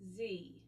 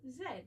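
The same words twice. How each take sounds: First: The letter is said the American way. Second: The letter is said the British way. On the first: "In American English, they use Z" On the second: "In British English, we use Z"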